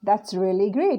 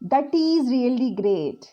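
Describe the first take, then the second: First: 'That is' is joined into one contracted word. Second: 'That is' is said as two full words.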